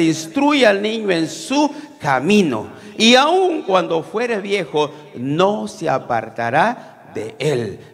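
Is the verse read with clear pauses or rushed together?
paused. It is read slowly, pausing at each comma. The meaning comes through clearly. The speaker calls it right.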